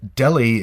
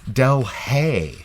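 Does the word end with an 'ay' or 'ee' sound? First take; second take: ee; ay. First: The word ends with an 'ee' sound. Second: The word ends with an 'ay' sound. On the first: It names the city in India. "Delhi is a famous city in India" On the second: It names the city in California. "it's pronounced Delhay"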